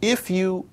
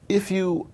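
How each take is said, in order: Both takes have the same delivery.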